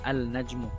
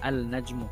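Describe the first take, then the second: First: The L of the article is pronounced. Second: The L of the article is pronounced.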